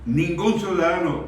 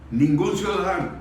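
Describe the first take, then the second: No difference in how they are said.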